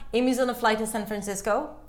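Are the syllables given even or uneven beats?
even. Every syllable gets the same even beat. The speaker calls it wrong.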